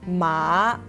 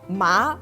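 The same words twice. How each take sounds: First: The pitch drops low, then rises again. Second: The pitch rises toward the end. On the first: It means horse. "Ma has the third tone" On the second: It means numb. "ma has the second tone"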